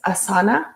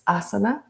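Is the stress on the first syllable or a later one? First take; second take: later; first. First: The stress falls on a later syllable. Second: The stress falls on the first syllable. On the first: The speaker calls it wrong. "sometimes it's mispronounced as asana" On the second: The speaker calls it right. "the correct way to pronounce this word is asana with the emphasis on the first syllable"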